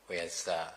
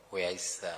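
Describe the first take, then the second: No difference in how they are said.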